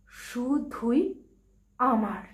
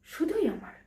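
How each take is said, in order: First: "শুধুই", pause, "আমার"; possessive emphasis. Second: "শুধুই" lifted high, then falling; possessive. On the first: Bride-to-be repeats her claim, word by word. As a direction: split it, landing firmly on "আমার". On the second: Bride-to-be claims her beloved, "শুধুই" lifted possessively. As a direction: lift "শুধুই" in one smooth claim. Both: Acted.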